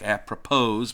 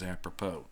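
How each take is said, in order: First: The word is pronounced the way it is spelled. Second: The word is pronounced differently from its spelling. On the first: The speaker calls it wrong. "I know it looks like apropos" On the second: The speaker calls it right. "the correct pronunciation is apropos"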